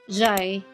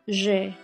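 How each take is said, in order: First: It is read with English or Tagalog sounds. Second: It is read with French sounds. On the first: The speaker calls it wrong. "Itong isa, jai, ganun mo siya ipo-pronounce" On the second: The speaker calls it right. "in French, ... itong isa, je"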